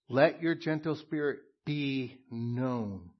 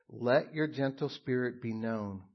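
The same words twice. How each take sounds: First: "your" leaned on, slower; slow emphatic reread. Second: Said in the usual way. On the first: Shown as a demonstration. Pastor rereads the verse for the congregation, slowly stressing "your". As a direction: linger on "your" so it sinks in. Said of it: "look at the text".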